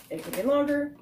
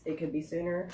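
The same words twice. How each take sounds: First: "longer" lifted high against "sooner"; contrasting alternative. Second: Said in the usual way. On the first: Real, not acted. Reviewer guessing the end date for viewers, "longer" pitched up. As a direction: raise the pitch for the other option, "longer". Contrasts two possible dates.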